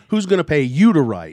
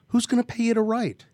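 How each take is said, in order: First: The stress falls on the word you. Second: The stress falls on the word who's.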